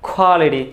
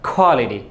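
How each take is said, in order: Both takes have the same delivery.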